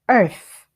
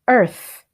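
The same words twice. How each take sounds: No difference in how they are said.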